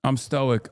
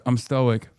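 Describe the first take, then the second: First: Said in the usual way. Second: Mock shouted claim of calm; shouted stoic. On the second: Shown as a demonstration. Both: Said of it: "That's what it is".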